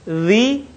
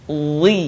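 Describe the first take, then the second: First: Light Zi, tongue flat; thin Zi. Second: Heavy, lower Zi with back of tongue raised; thick Zi. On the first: Teacher contrasts two letters for learners, thin Zi. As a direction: keep Zi thin, like English "the". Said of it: "diucapkan dengan tipis suaranya". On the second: Teacher contrasts two letters for learners, thickened Zi. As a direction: thicken and darken Zi. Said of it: "diucapkan dengan menebalkan suara". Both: Shown as a demonstration.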